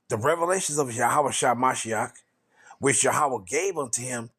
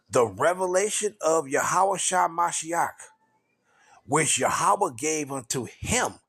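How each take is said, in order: First: It is read at a normal pace. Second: It is read very slowly.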